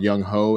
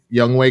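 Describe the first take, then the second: First: The second syllable sounds like 'ho'. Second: The second syllable sounds like 'way'. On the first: The speaker calls it wrong. "I'm not pronouncing his name right" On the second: The speaker calls it right. "that's not how Ho is pronounced. I guess it's it's like uh, Wei"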